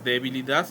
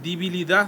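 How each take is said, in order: First: It is said with the standard vowel sounds. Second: It is said with a vulgar, altered vowel. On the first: The speaker calls it right. "Cuando es debilidad" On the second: The speaker calls it wrong. "otra que dicen debilidad"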